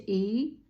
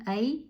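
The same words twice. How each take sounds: First: ای said "ey", opening on an e; ya joined after zer. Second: ای said "ay", opening on an a; ya joined after zabar. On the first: Teacher joining alef zer to ya, ای as "ey". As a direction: glide from short e into a held y on ای. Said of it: "الف ما زیر داره". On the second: Teacher joining alef zabar to ya, ای as "ay". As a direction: glide from short a into y on ای. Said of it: "الف ما زبر داره". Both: Shown as a demonstration.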